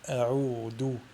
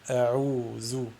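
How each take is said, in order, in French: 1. La consonne du milieu est un d dur. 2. La consonne du milieu est un son z bourdonnant. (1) "L'erreur à ne pas faire est de la prononcer del" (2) "ou la prononcer zey"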